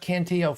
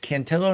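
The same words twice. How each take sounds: First: The name is said the Spanish way. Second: The name is said the Italian way. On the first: The speaker calls it wrong. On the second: The family is Italian. The speaker calls it right. "It's Cantillo ... Italian"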